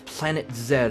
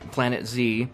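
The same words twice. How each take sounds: First: The letter is said the British way, zed. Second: The letter is said the American way, zee.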